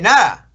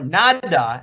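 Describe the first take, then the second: First: The d sound is barely touched. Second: The d sound is pronounced clearly. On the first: "they barely touch that D" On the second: "I say llamada or nada"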